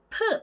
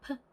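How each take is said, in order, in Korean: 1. p 발음은 강하고 선명합니다. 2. p 발음은 약하고 가볍습니다. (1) "이렇게 되게 선명한 발음이 아니고요" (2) "그냥 p, p 요 정도의 존재감이 별로 없는 발음"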